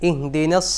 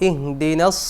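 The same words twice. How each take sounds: No difference in how they are said.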